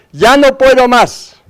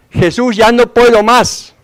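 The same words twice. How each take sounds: First: Much higher, slow, breaking plea of "ya no puedo más"; grito aún más desesperado. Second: Slow, higher pleading cry of despair, imitated; grito desesperado imitado. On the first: Retold or imitated. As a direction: push the cry up further into a desperate wail, slowly. (lamento muy agudo y lento: "ya no puedo más") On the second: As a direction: cry out to Jesus that you can't go on, drawn out. (clamor lento y agudo: "ya no puedo más") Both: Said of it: "empiezan a gritar".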